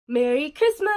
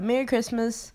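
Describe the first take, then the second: First: It sounds exaggerated and fake. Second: It sounds relaxed and natural.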